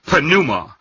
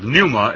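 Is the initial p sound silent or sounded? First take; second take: sounded; silent. First: The initial p is sounded. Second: The initial p is silent. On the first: The speaker calls it right. "the pi should be pronounced" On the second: The speaker calls it wrong. "instead of pneuma"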